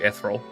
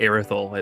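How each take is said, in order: First: The name is said in a shorter, simpler form. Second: The name is said in a longer, fuller form. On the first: It is the easier way to say it. The speaker calls it wrong. "honestly easier to say" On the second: It is how the person says their own name. The speaker calls it right. "It's how you say it. a bit more of a mouthful"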